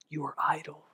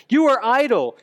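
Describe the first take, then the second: First: Hushed, breathy whisper; whispered accusation. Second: Higher and louder, accusing; booming Pharaoh. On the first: Retold or imitated. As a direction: hiss it like an inner voice. Inner accusing voice, shame. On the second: Acted. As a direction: bark the accusation. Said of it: "the voice of the taskmaster".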